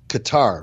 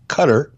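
First: The word is said to rhyme with guitar. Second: The word is said not rhyming with guitar. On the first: The speaker calls it wrong. "like guitar" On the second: The speaker calls it right. "the correct pronunciation of the country is Qatar"

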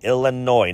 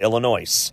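First: The final s is silent. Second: The final s is pronounced. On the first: The speaker calls it right. "Say it correctly" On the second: The speaker calls it wrong. "not Illinois"

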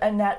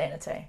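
First: The name is said with American pronunciation. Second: The name is said with Norwegian pronunciation. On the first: "the more Americanized pronunciation" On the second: "in a Norwegian accent, it would be... Closer to Annette"

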